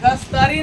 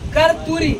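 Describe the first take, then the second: First: The middle cluster is pronounced as 'st'. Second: The middle cluster is pronounced as 'rt'. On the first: The speaker calls it wrong. "कस्तरी नहीं" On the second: The speaker calls it right.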